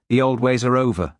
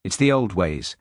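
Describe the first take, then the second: First: Curt, impatient snap; snapped. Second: Said in the usual way. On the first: A narrator's reading. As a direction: cut him off sharply. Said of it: "Thorne snapped". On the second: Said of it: "Hamish's calm reply to Thorne".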